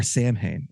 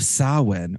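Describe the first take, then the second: First: Samhain said as SAM-hane; phonetic mispronunciation. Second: Samhain said as SAH-win; Gaelic pronunciation. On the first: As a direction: pronounce Samhain as it is spelt, "SAM-hain". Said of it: "could pronounce it". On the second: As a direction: pronounce Samhain "SOW-in", with a silent m. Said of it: "or Samhain". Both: Shown as a demonstration.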